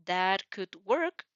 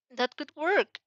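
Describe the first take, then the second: First: Slow. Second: Higher. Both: Shown as a demonstration.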